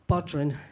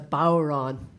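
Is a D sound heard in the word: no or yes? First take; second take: yes; no. First: The D sound is pronounced in the word. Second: The D is silent, with a long flat vowel. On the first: The speaker calls it wrong. "you might be inclined to pronounce it Bodrin" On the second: The speaker calls it right. "the D is silent. So actually, it's as as long and as low and as flat and as Irish you can make it"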